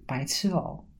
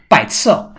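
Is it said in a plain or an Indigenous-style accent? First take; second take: plain; Indigenous-style. First: It is said shyly in a plain accent. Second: It is said in an Indigenous-style accent. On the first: "我是会装害羞，然后就这样子" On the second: "而且用那种有点原住民那种"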